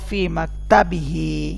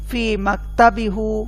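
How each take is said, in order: First: The word ends with the syllable 'hi'. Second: The word ends with the syllable 'hu'. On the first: The speaker calls it right. "হুকে আমরা পরিবর্তন করে হি করছি" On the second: The speaker calls it wrong. "কঠিন মনে হচ্ছে না?"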